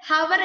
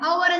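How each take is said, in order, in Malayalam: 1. ഈ വാക്ക് H ശബ്ദത്തിലാണ് തുടങ്ങുന്നത്. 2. ഈ വാക്ക് സ്വരാക്ഷരത്തിലാണ് തുടങ്ങുന്നത്. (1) "നമ്മൾ ഹവർ എന്ന് വായിക്കാറില്ല" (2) "അവർ എന്നാ വായിക്കാറുള്ളൂ"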